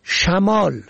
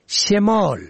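First: شمال with "a" after the ش, "shamol"; first vowel fatha. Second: شمال with "e" after the ش, "shemol"; first vowel kasra. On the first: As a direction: say شمال as sha-MOL. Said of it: "به فتح اول". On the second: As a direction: say شمال as she-MOL. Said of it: "به کسر اول". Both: Shown as a demonstration.

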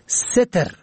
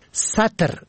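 First: ستر with "e" after the س, "setr"; first vowel kasra. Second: سطر with "a" after the س, "satr"; first vowel fatha. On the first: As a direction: say ستر as SE-ter. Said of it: "به کسر اول". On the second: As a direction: say سطر as SA-ter. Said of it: "به فتح اول". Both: Shown as a demonstration.

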